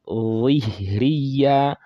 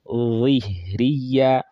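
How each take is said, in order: First: The first consonant is heavy and fills the mouth. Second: The first consonant is heavy and fills the mouth.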